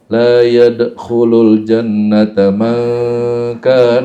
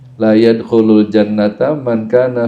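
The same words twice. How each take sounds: First: It is recited with lengthened and nasalized tajwid sounds. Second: It is read plainly without lengthened or nasalized sounds. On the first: The speaker calls it wrong. "Nggak usah begini" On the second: The speaker calls it right. "kalau hadis nggak, nggak usah"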